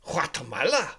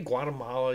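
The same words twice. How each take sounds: First: It is said with a put-on Spanish accent. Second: It is said with a plain English accent. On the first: The speaker calls it wrong. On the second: The speaker calls it right. "We just say Guatemala"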